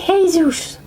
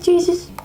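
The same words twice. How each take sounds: First: The name is pronounced the Spanish way. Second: The name is pronounced the English way. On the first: The speaker calls it right. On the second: The speaker calls it wrong. "not Jesus"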